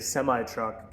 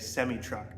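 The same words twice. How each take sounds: First: It is said with an American pronunciation. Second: It is said with a Canadian pronunciation. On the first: "Americans say semi truck" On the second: "Canadians say semi truck"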